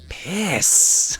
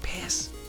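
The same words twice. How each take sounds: First: The final S is long and drawn out. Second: The final S is short and plain.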